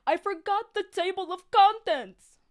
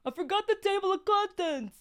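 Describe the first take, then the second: First: High, loud odd character voice; put-on narrator voice. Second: Much higher put-on voice; second try at a voice. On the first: Narrator Jack announces his mistake in a high put-on voice. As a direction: give Jack a strange high voice. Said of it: "I gotta give him, like, a voice". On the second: Reader retries Jack's line in a much higher put-on voice. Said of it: "I'm not really good at accents".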